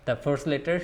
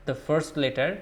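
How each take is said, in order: Both takes have the same delivery.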